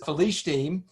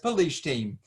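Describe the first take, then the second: First: The word begins with an F sound. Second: The word begins with a P sound. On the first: "it doesn't have the Dagesh" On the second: "here you have the Pei"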